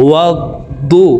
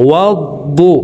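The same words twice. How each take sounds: Both takes have the same delivery.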